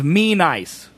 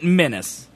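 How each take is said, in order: First: The second syllable rhymes with 'ice'. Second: The second syllable rhymes with 'miss'. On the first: The speaker calls it right. "The man's name is Me Nice" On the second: The speaker calls it wrong. "I pronounced it Menace"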